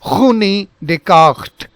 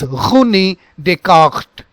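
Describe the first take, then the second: First: The R is a guttural sound from the throat. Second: The R is a guttural sound from the throat.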